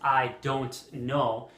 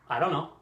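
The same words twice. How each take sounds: First: Each word is pronounced fully and clearly. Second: The words are shortened and run together. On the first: The speaker calls it wrong. "We don't pronounce" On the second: The speaker calls it right. "We just shorten it. We just say"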